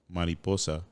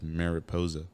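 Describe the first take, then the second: First: It is said with a Spanish pronunciation. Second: It is said with an anglicized English pronunciation. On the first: This is the original word. "the word is actual" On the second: This is the word sounded out by English speakers.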